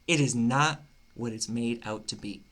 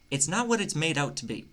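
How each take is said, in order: First: It is said slowly. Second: It is said fast.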